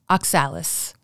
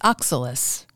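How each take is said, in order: First: The stress falls on a later syllable. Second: The stress falls on the first syllable. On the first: The speaker calls it wrong. "a mispronunciation occurs because of a misplaced accented syllable" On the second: The speaker calls it right. "the correct pronunciation is oxalis"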